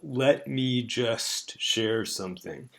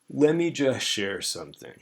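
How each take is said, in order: First: 'Let me' is said fully, each sound clear. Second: 'Let me' is reduced and run together. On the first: "The full form, if it weren't reduced" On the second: "More typically, it'll sound like this"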